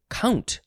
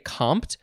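First: It is pronounced just like the word count. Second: It is pronounced with an M and P: komt. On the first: "or you could say count" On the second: "You could say compt"

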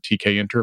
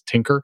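First: The letters T and K are said separately. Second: It is said as one word, 'Tinker'.

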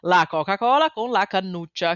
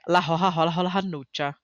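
First: It has standard Italian pronunciation with hard c sounds. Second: It has a Tuscan accent with breathy c sounds.

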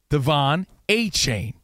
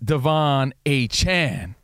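First: The last syllable has a long 'ay' vowel. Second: The last syllable has a short 'a' vowel. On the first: The speaker calls it wrong. "He said it's not A-Chain" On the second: The speaker calls it right. "who now says it's Devon A-Chan"

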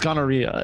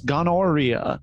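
First: It is said in a plain English accent. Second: It is said with a put-on Italian accent.

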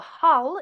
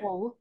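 First: The word is said in a posh southern accent. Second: The word is said in a northern local accent. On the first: This is how refined speakers say it. "if you want to be posh" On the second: This is how local people say it. "but up here it's"

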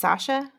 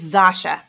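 First: The name begins with an S sound. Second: The name begins with a Z sound. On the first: The speaker calls it wrong. "Is that really how you say it? Just Sasha?" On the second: The speaker calls it right. "It's Zasha. That's how you say it"

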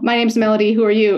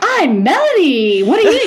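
First: It is said in a calm, casual way. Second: It is said with intense, exaggerated energy.

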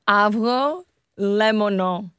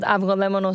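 First: The word is said slowly, broken into parts. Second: The word is said at a normal pace.

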